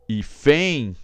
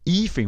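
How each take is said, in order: First: The stress is on the last syllable. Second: The stress is on the first syllable. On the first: The speaker calls it wrong. "opa, nada de fem" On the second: The speaker calls it right. "o i é forte"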